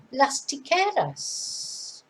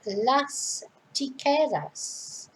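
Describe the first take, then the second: First: Las tijeras said very slowly and deliberately; slow model pronunciation. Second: Las tijeras repeated very slowly for learners to copy; slow model repeat. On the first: Teacher slowly modelling las tijeras for learners. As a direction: draw out las tijeras syllable by syllable. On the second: Teacher repeating las tijeras for learners to copy. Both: Shown as a demonstration. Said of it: "go back through the pronunciation".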